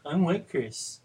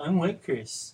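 First: It is said in a melancholy way. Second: The same.

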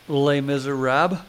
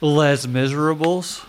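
First: The title is pronounced the French way. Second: The title is pronounced the English way.

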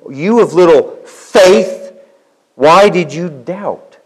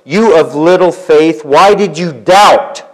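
First: The stress falls on the word faith. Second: The stress falls on the word doubt.

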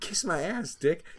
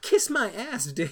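First: It is said calmly, without screaming. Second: It is screamed loudly, with anger.

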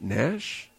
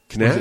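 First: The name starts with an n sound. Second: The name starts with a k sound.

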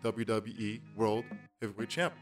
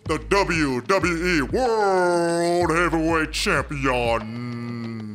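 First: It is said plainly, without conviction. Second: It is said with excited, showy conviction.

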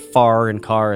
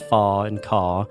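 First: The final R sounds are clearly pronounced. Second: The final R sounds are dropped. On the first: "instead of far and car" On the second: "the non-rhotic R"

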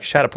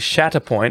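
First: The syllables are run together and blurred. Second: Each syllable is said clearly and separately. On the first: This is what listeners actually hear. "we're just rolling it all into one and it sounds like Shatterpoint" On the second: This is what the speakers intend to say. "we are actually saying Shatterpoint"

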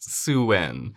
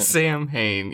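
First: It is said like 'sow-in', with no 'm' or 'h'. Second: It is said as spelled, with 'sam' and 'hain'. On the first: "but pronounced Suwen" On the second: "It's spelled like Sam Haynes"

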